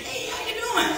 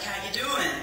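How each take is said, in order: First: Eager greeting. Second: Said in the usual way. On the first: Retold or imitated. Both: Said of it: "'Cause I thought that was something that you should ask".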